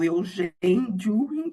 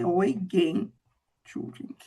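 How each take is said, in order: First: The name is said as it is spelled. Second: The name is said the native German way. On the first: The speaker calls it wrong. "Eu leio" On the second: The speaker calls it right. "mas a pronúncia é"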